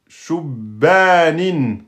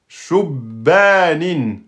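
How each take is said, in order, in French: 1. Le b est doublé ; la voyelle après lui est longue. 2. Le b est doublé ; la voyelle après lui est longue.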